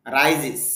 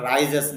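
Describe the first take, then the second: First: "রাইজেস" with a short i ending, rai-zis; correct pronunciation. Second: "রাইজেস" with an e in the last syllable, rai-zes; wrong pronunciation. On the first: Teacher corrects how learners say rises, "রাইজেস" pronounced rai-zis. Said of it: "হবে উচ্চারণটা". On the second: Teacher shows learners the form to avoid, mispronounced "রাইজেস" as rai-zes. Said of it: "রাইজেস না". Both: Shown as a demonstration.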